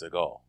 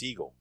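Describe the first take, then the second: First: The name ends rhyming with Degas. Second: The name sounds like the word seagull. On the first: The speaker calls it wrong. "His name is not pronounced Seagal" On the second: The speaker calls it right. "It's really pan- pronounced Seagull"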